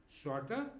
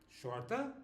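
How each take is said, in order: No difference in how they are said.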